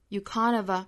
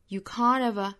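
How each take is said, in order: Both takes have the same delivery.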